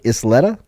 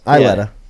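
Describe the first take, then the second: First: The S in the name is pronounced. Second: The S in the name is silent. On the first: "am I saying this right?" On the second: "I'm going silent S"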